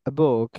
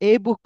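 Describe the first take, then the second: First: The article sounds like a short 'uh'. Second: The article sounds like a full 'ay'. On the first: The speaker calls it right. "আমি কি এই বুক বলছি? No." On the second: The speaker calls it wrong. "আমরা এ বুক পড়েছি"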